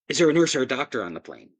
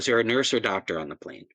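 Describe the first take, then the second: First: It is said in a pressing, urgent way. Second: It is said in a calm, routine way. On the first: The problem is serious. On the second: The problem is probably minor.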